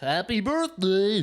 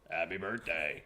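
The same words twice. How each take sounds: First: It is said in a cheery character voice. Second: It is said in a plain grown man's voice.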